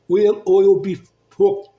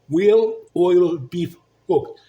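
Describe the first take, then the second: First: The phrase is said quickly, words running together. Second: The phrase is said slowly, word by word.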